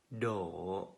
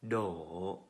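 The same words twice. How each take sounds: No difference in how they are said.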